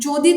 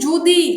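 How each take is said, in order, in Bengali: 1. প্রথম স্বরধ্বনিটি একটি খোলা 'aw' ধ্বনি। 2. প্রথম স্বরধ্বনিটি একটি বদ্ধ 'o' ধ্বনি। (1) "অ থেকে ও এর উচ্চারণ চলে আসছে" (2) "অ থেকে ও এর উচ্চারণ চলে আসছে"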